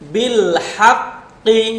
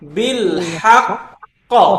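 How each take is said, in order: First: The word ends on a short final vowel. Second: The word ends with a strong echoing bounce. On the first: The reader continues past this word. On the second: The reader stops on this word.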